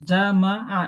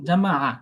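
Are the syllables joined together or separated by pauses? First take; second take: separated; joined. First: The syllables are said separately with pauses. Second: The syllables are joined together without pauses. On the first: The speaker calls it wrong. "এইভাবে বললে তো মানে যুক্ত হইলো না, আলাদা আলাদা হইলো" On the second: The speaker calls it right. "যুক্ত"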